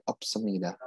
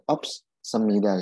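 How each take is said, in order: First: "ops semida" run together as op-semida with one s; no break in "ops semida", single s. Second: "ops semida" split, s ending ops and starting semida; double S. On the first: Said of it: "Satu aja nggak apa-apa". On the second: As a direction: pause between ops and semida, sounding both s's. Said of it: "S-nya double jadinya". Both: Shown as a demonstration.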